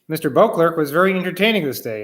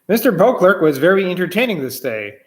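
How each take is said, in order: First: It is read plainly, with less emphasis. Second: It is read with more emphasis.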